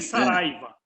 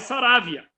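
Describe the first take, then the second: First: The i sound comes before the v sound. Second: The v sound comes before the i sound. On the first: This is the form used here in Brazil. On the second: This is the form used in Uruguay. "Lá no Uruguai"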